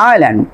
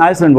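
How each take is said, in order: First: "আইল্যান্ড" said eye-lan, no s, pitch dropping; falling, standalone "আইল্যান্ড" with the s left silent. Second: "আইসল্যান্ড" said ice-lan, with an s; "আইসল্যান্ড" with a hissed s before lan; S wrongly sounded. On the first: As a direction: model "আইল্যান্ড" without any s. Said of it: "কি বলছি?". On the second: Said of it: "আমি কিন্তু আইসল্যান্ড বলিনি". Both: Shown as a demonstration.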